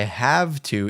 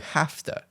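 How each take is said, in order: First: It is said with a V sound before 'to'. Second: It is said with an F sound before 'to'. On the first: "we convert the V T into F T" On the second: "is converted to have to"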